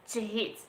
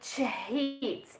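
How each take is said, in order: First: The word is said quickly with a reduced vowel. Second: The word is said slowly with a clear vowel.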